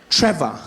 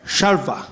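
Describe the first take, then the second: First: Said in the usual way. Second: Imitated guard garbling the name into "Shalva"; "Shalva" with an sh start and an added l; mispronounced Trevor. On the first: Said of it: "my name is Trevor". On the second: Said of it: "the security guard came out to the boom".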